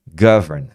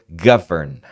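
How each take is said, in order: No difference in how they are said.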